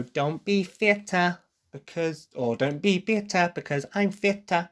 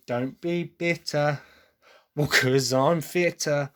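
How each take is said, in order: First: Higher, imitating a forced British accent; effortful mock British accent, pitched high. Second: Slow demo of an English accent; measured English-accent pronunciation. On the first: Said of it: "trying to force the British accent there". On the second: Shown as a demonstration. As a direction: show the rhyme slowly in an English accent. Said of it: "for an English person, you can be".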